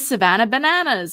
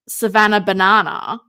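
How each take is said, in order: First: It is said in an American accent. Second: It is said in an Australian accent. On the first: The speaker calls it right. "But Americans like, you know" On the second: The speaker calls it wrong. "if I say Savannah Banana, it sounds stupid"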